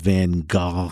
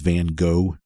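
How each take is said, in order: First: The name is said as other countries say it. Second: The name is said the American way. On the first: "something like that in some other places" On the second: "where I'm from, I've always heard it as Van Gogh"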